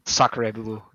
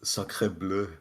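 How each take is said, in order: First: Mock French exclamation; hammed-up French accent. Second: Over-the-top French exclamation; French accent. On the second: Pretend. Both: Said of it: "Is he French?".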